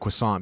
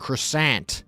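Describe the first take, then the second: First: It is said with a French-style pronunciation. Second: It is said with an American pronunciation. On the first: The speaker calls it right. "I say it how it's intended to be said" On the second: The speaker calls it wrong. "like an American, like a dumb piggy American"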